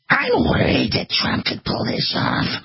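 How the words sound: It is said in an imitated put-on voice.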